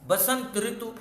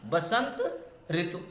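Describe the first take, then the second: First: Said in the usual way. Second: Basant and ऋतु said separately with a pause between; teacher showing where the compound breaks; split apart. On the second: Shown as a demonstration. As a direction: pause after Basant, then ऋतु alone. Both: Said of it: "अब रा तो देखो यहाँ पर है".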